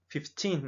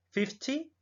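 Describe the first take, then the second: First: Put-on "fifteen" with a long "teen" and a clear N; "fifteen" with a drawn-out end. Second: "Fifty" with a short I, pitched high; "Fifty" said briskly with a short I. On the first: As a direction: stretch the I in "fifteen" and sound the N. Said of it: "sonido de la I un poco más largo". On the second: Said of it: "este sonido de la I es como corto". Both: Shown as a demonstration.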